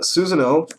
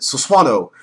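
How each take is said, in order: First: The middle syllable has no 'w' sound. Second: The middle syllable has a 'w' sound. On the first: The speaker calls it right. "it's Susanoo for all you freaking idiots" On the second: The speaker calls it wrong.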